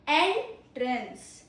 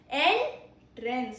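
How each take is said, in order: First: The stress is on the first syllable. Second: The same.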